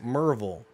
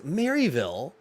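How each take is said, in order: First: The name is said in a shortened local form. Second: The name is said in its full form. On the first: This is how locals actually say it. "but it's Merville" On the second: This is the correct, standard pronunciation. "If you want to pronounce it correctly, it's Maryville"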